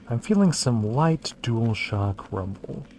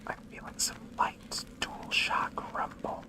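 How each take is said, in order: First: It is spoken in a normal voice. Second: It is spoken in a whisper.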